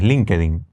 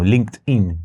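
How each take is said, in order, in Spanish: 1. Se dice de forma local, adaptada. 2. Se dice como se pronuncia originalmente.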